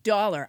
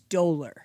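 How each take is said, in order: First: The word is said like 'dollar'. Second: The first vowel is said like 'dough'. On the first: The speaker calls it wrong. "I said dollar" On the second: The speaker calls it right. "I believe it's dolor"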